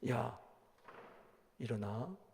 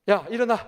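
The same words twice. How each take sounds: First: It is said timidly and meekly. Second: It is said boldly and commandingly.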